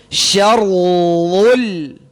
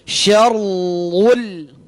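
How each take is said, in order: Both takes have the same delivery.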